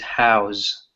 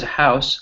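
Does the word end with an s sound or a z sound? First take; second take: z sound; s sound. First: The word ends with a z sound. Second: The word ends with an s sound. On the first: It is the verb meaning to hold something. "it has a little bit more of that Z sound in that second one" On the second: It names a home. "the first one is house, like this is my house"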